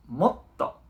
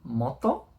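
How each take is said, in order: First: Moto slowed, with a brief catch before the t; small pause. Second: Moto said smoothly with no break; plain moto. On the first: Teacher showing students the pause of small tsu. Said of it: "una especie de pausa pequeña". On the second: Teacher contrasting two readings of moto for students. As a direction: say Moto straight through. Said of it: "Moto o moto". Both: Shown as a demonstration.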